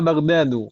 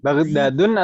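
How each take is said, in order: First: The word ends on a vowel without n. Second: The word ends with an added n sound. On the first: The speaker calls it right. "yang tidak boleh tanwin" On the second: The speaker calls it wrong. "Baghdadun atau Baghdadu?"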